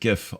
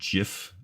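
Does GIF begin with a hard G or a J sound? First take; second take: hard G; J sound. First: The word begins with a hard G sound. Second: The word begins with a soft J sound. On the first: The speaker calls it right. "I pronounce it GIF, obviously" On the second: The speaker calls it wrong. "if you think they're like giraffe"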